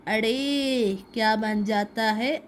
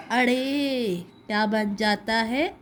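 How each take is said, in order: Both takes have the same delivery.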